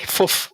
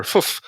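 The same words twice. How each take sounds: First: "fuff" said as a short puffed word; his word for water. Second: "fuff" repeated higher on its own; his word for water. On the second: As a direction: repeat "fuff" alone, pitched up. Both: Shown as a demonstration. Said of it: "fuff was water".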